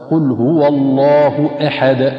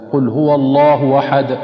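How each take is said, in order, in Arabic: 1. الهمزة همزة قطع واضحة. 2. الهمزة تُنطق مثل الواو. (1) "والصواب" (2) "فالبعض ينطقها أيضا مثل الواو"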